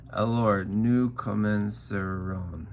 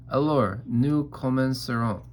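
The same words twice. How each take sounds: First: Slow, drawn-out mimicry of the tutor's French; Eloise mimicking. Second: Crisp opening of a French lesson, louder; tutore Philip. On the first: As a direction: parrot the tutor, dragging it out. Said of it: "And I say". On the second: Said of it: "Here's what makes Philip angry. He says". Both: A narrator's reading.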